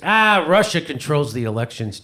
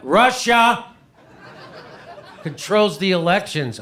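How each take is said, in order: First: Lightly voiced brother, matter-of-fact; imitating brother. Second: Much higher and louder, laughing through it; emphatic repeat. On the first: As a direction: state it as if it were obvious. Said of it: "He goes". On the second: Retold or imitated. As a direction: hammer the claim home in disbelief.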